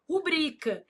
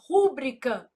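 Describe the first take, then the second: First: The stress is on the second syllable. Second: The stress is on the first syllable. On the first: The speaker calls it right. "O certo é o quê?" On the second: The speaker calls it wrong. "A pessoa vai lá e fala assim"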